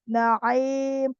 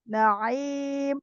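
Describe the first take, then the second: Both takes have the same delivery.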